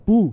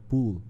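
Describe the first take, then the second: First: The vowel is short, like in 'pull'. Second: The vowel is long, like in 'pool'. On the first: It sounds like the word for pulling. The speaker calls it wrong. "eu falava pool, pool. Só que pull é outra coisa" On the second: It means swimming pool. The speaker calls it right. "Em inglês é, é pool"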